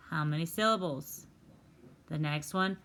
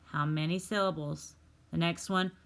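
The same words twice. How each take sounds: The two takes are said the same way.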